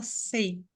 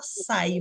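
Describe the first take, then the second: First: "sei" with an "ei" vowel; pronounced "sei". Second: "sai" with an open "ai" vowel; pronounced "sai". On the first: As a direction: say "sei" with a closer "ei", not "ai". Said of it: "você fala sei". ("sei" pronunciado com "ei") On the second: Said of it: "Você fala sai". ("sai" pronunciado com "ai" aberto) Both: Shown as a demonstration.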